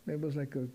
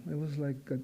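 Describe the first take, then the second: No difference in how they are said.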